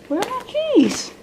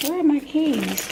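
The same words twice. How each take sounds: First: Very high sing-song question; high-pitched searching. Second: Higher, softer self-directed question; puzzled searching. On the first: Calling out for her missing keys, high-pitched. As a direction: lift it way up as you search. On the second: Muttering to herself while hunting for keys, puzzled. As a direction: ask yourself, voice lifted and softened. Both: Real, not acted.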